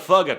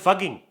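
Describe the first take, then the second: First: It is said in an American English accent. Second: It is said in an Indian English accent. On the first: "What about uh, American?" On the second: "What about Indian?"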